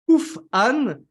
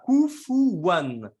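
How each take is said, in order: First: No vowel after f; a glottal catch follows. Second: A w sound links the u to the a. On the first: This is a third accepted reading of the verse. "on va mettre une soukoun sur le fa" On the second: This is one accepted reading of the verse. "on le lit comme ça"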